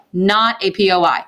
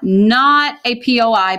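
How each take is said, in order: First: Said in the usual way. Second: Each letter P O I said slowly and firmly; a teacher slowly spelling out P O I for the class; slow, spelled-out P O I. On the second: Shown as a demonstration. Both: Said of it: "P O I stands for point of inflection".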